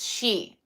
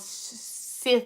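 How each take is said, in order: First: It is said like 'shee', with no final consonant. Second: It is said like 'sith', ending in a th. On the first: The speaker calls it right. "but it's she" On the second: The speaker calls it wrong. "which is why they are called Sith now"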